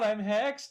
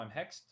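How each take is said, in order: First: It is said in a shocked, dramatic way. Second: It is said calmly, without much shock.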